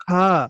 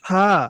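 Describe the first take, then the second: No difference in how they are said.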